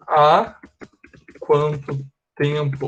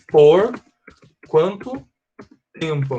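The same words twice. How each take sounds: First: "há" stressed, then a pause before a slow "quanto tempo"; teacher showing the right translation, slowed down; slow and deliberate. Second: "Por" hit hard, then "quanto" and "tempo" split off with pauses; quoting a student's wrong "Por quanto tempo" word by word. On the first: Shown as a demonstration. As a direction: spell out "há quanto tempo" slowly with a pause after "há". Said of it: "isso aqui, ó". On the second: Retold or imitated. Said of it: "a pessoa que falou disse assim".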